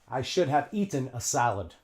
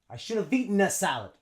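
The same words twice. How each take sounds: First: 'Should have' is pronounced fully and clearly. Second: 'Should have' is reduced to 'shoulda' and linked. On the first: The speaker calls it wrong. "native English speakers don't say that" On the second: The speaker calls it right. "They say"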